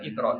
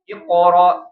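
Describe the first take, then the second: First: The bounced q sound is light and thin. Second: The bounced q sound is heavy and thick. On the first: The speaker calls it wrong. "bukan iqra" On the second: The speaker calls it right. "tapi Iqra"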